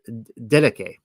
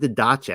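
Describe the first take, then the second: First: The last consonant sounds like 'k'. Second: The last consonant sounds like 'ch'. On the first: The speaker calls it right. "I think it's Didache, actually. Like it should be a K there instead of a C H" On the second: The speaker calls it wrong. "I want to say Didache"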